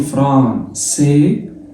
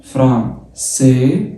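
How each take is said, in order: The two takes are said the same way.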